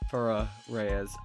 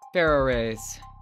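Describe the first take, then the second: First: It is said slower in a sultry voice. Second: It is said in a plain, normal voice.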